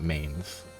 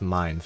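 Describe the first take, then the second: First: The vowel sounds like the word 'ay'. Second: The vowel sounds like the word 'eye'. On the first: This is not the intended pronunciation. The speaker calls it wrong. "and not mains" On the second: This is the intended pronunciation. The speaker calls it right. "Apparently it's supposed to be pronounced mines"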